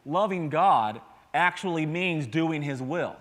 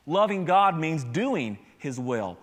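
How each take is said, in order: First: Loving God actually means doing his will, slow and deliberate; slow emphatic. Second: Loving God means doing his will, even slower and firmer; slow emphatic repeat. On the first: Pastor drives the point home to the congregation, slow and emphatic. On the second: Pastor repeats the key line to the church, slower and firmer. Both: Shown as a demonstration.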